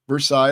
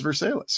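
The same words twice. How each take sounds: First: The name is said the usual, standard way. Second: The name is said the local Missouri way.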